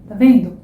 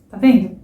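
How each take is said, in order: The two takes are said the same way.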